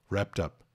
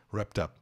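No difference in how they are said.

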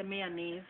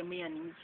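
First: Said in the usual way. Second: "mayonnaise" ending in neez; Jamaican pronunciation. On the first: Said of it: "we don't say mayonnaise". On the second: Shown as a demonstration. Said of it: "We say mayonnaise".

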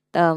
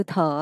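First: "tờ" with an unaspirated T; wrong plain T. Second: "thờ" with a breathy puff on the T; aspirated T. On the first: Teacher showing learner the sound to avoid, plain unaspirated T. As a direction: say "tờ" with no puff of air. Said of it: "Tờ mình không đọc là tờ". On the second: Teacher showing learner the English T, aspirated. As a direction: release air on the "th" of "thờ". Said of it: "mà mình đọc như hư thờ". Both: Shown as a demonstration.

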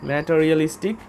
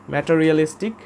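Both takes have the same delivery.

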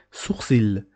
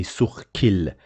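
First: Sourcil with a soft s; French sourcil. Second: Sourcil with a k sound; wrong hard c. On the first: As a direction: say Sourcil with an s sound. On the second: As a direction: say sourcil with a k, the mistake. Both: Shown as a demonstration. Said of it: "We don't say".

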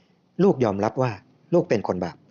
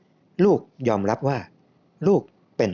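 First: Slow, phrase-by-phrase confession; drawn-out opening, complete falling close; slow prayer prompt. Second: Slow repeat that breaks off unfinished; drawn-out words, left hanging; hesitant repeating. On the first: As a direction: lead someone through the words. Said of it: "พูดช้าๆทีละประโยค". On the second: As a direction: follow along reluctantly, then stop short. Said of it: "ผมก็รู้สึกขัดแย้งในใจ". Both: A narrator's reading.

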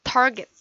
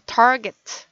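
First: Target with an English t and r; not ta-get but target. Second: Target slowly with an English t and r, not Korean ta-get. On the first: Teacher repeating target the right way. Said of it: "타겟이 아니라 target". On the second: Teacher correcting the Korean ta-get. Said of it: "이거는 타겟이 아니라 target". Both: Shown as a demonstration.

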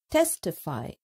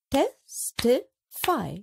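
First: Said in the usual way. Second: "testify" stretched slowly, syllable by syllable; slow and drawn out. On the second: Shown as a demonstration. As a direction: draw out "testify" for counting. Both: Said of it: "a few more examples".

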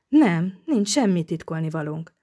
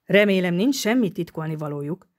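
First: Mildly strained, convincing denial; forced conviction. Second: A touch of cunning suspicion; slyly probing. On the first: Flustered girl denying secrets to the inspector, forced conviction. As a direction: try a little too hard to convince. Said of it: "válaszolta erőltetett, meggyőző hangon". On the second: Inspector fishing for what the pair hide, slyly probing. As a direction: probe slyly for a secret. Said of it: "firtatta ravaszul Palmu". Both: A narrator's reading.

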